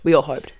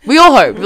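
First: Said in the usual way. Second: "all" swooping up, louder, falling on "hoped"; emphatic doubt. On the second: Real, not acted. Storyteller unsure the train stops, stressing "all" doubtfully. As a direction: lean hard on "all". Repeats phrase for comic emphasis.

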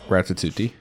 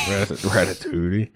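First: Ratatouille said as "rat-a-tooty"; wrong on purpose. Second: Ratatouille said properly, "rat-a-too-ee"; careful correct ratatouille, "rat-a-too-ee"; correct pronunciation. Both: Shown as a demonstration. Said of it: "I said it wrong on purpose".

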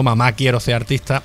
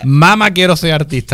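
First: "Mamá" stressed on the last syllable, má; mamá with the accent. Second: "Mama" stressed on the first syllable, said slowly and carefully. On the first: Host saying the album title the way everyone does, mamá with final stress. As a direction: say "Mamá" the usual way, stress at the end. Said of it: "en todos lados ponen la tilde atrás". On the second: Host correcting himself on the album title, careful first-syllable stress. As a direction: say "Mama" properly, MA-ma, taking your time. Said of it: "aquí lo vamos a decir bien". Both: Shown as a demonstration.

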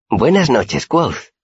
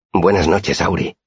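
First: Very high-pitched, dainty character greeting; Auri's voice. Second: Said in the usual way. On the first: A narrator's reading. Tiny girl on the roof greets her friend, high voice.

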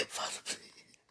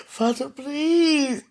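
First: Breathless whispered prayer; whispered plea. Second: Slow, crying plea; drawn-out wail. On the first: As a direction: barely breathe the words. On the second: Desperate plea. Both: Real, not acted.

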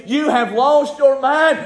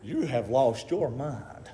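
First: High, slow, preached out; drawn-out, forceful mockery of doubters; scoffing accusation. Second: Low, slow and soft; quiet, drawn-out dismissal; hushed disbelief. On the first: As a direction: tell her off in a raised pitch. Voices the scoffing people. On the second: Acted. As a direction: tell them quietly, word by word. You know what they said?.

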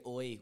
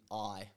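First: "oi" as the Dublin way of saying I; Irish-accented "oi"; Dublin vowel. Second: Said in the usual way. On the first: Shown as a demonstration. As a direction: round the vowel of I into "oi". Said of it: "You say". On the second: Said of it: "when you mean".

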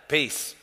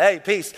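First: Casual peace. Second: Offhand throwaway Hey, peace; casual peace. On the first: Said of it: "That's totally different than, like". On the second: Preacher mocking the American greeting, offhand. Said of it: "in America, that's what we're like". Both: Shown as a demonstration.

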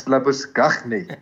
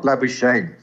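First: Labuschagne slowly as le-bus-KHAKH-nee; throaty, deliberate kh sounds in Labuschagne, ending nee; Afrikaans pronunciation. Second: Labuschagne said LAB-uh-shayn; anglicised pronunciation. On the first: Voicing the player's parents insisting on their name, Afrikaans Labuschagne. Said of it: "Marnus's parents are probably". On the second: Voicing the parents rejecting the wrong version, anglicised Labuschagne. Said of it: "It is not Labuschagne". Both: Retold or imitated.

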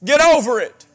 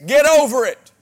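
First: Loud, high, hitting over hard; forceful preaching repeat. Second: Loud, high, punching the word over; forceful preaching. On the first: Preacher repeating his command to the congregation, loud and forceful. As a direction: drive it home a second time. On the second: Preacher urging his church to drop offenses, loud and forceful. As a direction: hammer it home from the pulpit. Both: Real, not acted.

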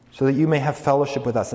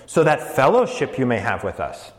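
First: Said in the usual way. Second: "fellowship" stressed up front in Greek word order; "fellowship" placed first and stressed; emphasis on fellowship. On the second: Shown as a demonstration. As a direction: lean on "fellowship" so it stands out early. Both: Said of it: "fellowship is emphatic".

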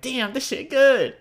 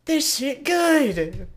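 First: High, slow, loud "damn this shit good"; drawn-out delighted moan; savoring food. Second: High, very slow "this shit good"; stretched-out blissful food moan; savoring food. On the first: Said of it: "you're gonna be like". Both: Pretend.

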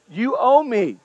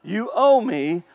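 First: A hint of a sulky older brother, falling firmly; lightly voiced grudge, flat demand; mild mock resentment, stating a debt; resentful older brother. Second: Lightly voiced older brother, drawn out and rising; mild mock grievance, stretched like a question; understated sulky demand, slow; resentful older brother, slower. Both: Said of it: "That's what he's saying".

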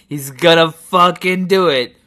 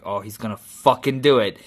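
First: Imitating a thrilled viewer, loud and high; mounting excitement. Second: Imitating a viewer's first suspicion, held back; restrained anticipation. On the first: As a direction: call it out, sure it's about to happen. Acts viewer's suspense building. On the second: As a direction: realize it's coming, at an everyday volume. Acts viewer's first suspense.

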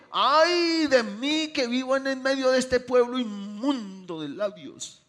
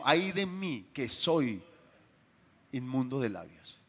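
First: Slow, loud, higher lament, hammed up; mock wrong version of the prophet. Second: Very slow, weighed words, falling into a hush; the correct quote, deliberate. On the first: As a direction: play the misquoted prophet grandly. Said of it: "Él no dijo". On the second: Acted. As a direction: spell out the real words slowly and solemnly. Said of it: "No, dijo".

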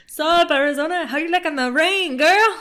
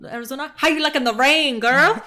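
First: Much higher and louder, hammed-up; exaggerated mocking voice. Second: Higher and louder mimicry, teasing; mocking character voice. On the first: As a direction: overdo the mimicry, squeal it out. Repeats the line, more exaggerated. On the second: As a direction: parrot the line back in a mocking voice.

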